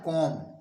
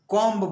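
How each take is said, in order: First: The word ends without a b sound. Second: The word ends with a b sound. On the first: The speaker calls it right. "बल्कि इसको पढ़ा जाता है कॉम" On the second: The speaker calls it wrong. "इसको लोग गलत पढ़ते हैं, कॉम्ब बोलते हैं"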